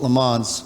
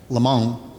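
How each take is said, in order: First: It is said with a plain American pronunciation. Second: It is said with a careful French pronunciation. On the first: It follows how a respected person says it. "Snake calls it Le Mans" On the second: The speaker is trying to sound sophisticated. "I worked on my pronunciation"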